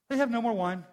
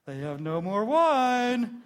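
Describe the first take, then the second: First: It is said simply, in a plain tone. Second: It is said in a knowing, hinting tone. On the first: It is just a statement of fact. "very simply" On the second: The speaker hints that the listener should do something. "Wink, wink"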